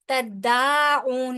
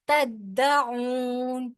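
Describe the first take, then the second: First: The vowel after the d is drawn out long. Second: The vowel after the d is kept short. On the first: The speaker calls it wrong. "नहीं कहना" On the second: The speaker calls it right. "दा के ऊपर जो जबर है उसको बगैर खींचे अदा करेंगे"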